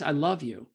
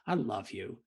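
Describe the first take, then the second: First: It is said in a plain, sincere tone. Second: It is said in a mocking, sarcastic tone. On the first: The speaker means it. "if I said on text" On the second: The speaker does not mean it. "a little sarcasm"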